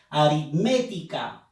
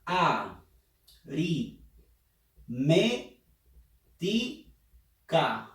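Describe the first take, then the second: First: Said in the usual way. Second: Aritmética dragged out very slowly; very slow syllabified. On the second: Shown as a demonstration. Teacher dragging aritmética out to find the stressed syllable. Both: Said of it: "A ver, pronuncia".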